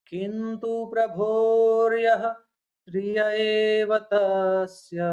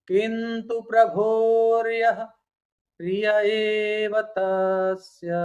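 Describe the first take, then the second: Both takes have the same delivery.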